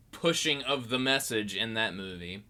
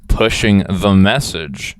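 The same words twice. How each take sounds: First: Said in the usual way. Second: Slow, low and very loud; hammed-up low booming voice; mock-ominous slogan. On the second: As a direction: boom it out slowly, deep and mocking. Mocking a slogan, theatrically.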